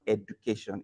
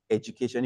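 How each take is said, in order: First: "education" with a plain hard d, ed-yu-kay-shun; wrong pronunciation. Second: "education" with a j sound, ej-u-kay-shun; correct affricate pronunciation. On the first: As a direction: say "education" with a d and no j sound. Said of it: "So the word is not education". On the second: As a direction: say the d in "education" as a soft j. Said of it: "it's pronounced education". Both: Shown as a demonstration.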